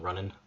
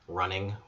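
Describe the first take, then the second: First: The final G is dropped, Irish accent. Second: The final G is pronounced, general accent.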